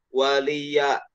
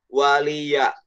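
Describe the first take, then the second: Both takes have the same delivery.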